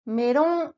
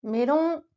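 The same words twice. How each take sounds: First: Melon said with L for the Japanese R; the R sounded as a light L in melon. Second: Melon, light L-like R; Japanese melon. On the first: Teacher showing the easy R for beginners. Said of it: "comme si c'était un L". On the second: Teacher repeating for learners. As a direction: model melon for copying. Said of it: "répète après moi". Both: Shown as a demonstration.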